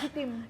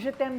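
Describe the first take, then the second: First: It is said with an Ilonggo accent. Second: It is said with a French accent.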